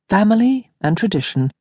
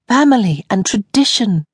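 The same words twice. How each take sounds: First: Said in the usual way. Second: Family raised and stressed, falling after. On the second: Acted. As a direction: lean on Family as a reminder. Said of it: "she reminded her".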